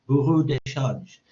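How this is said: The term is pronounced with French sounds. "but the French term is"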